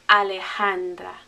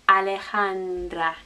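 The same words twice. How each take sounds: The two takes are said the same way.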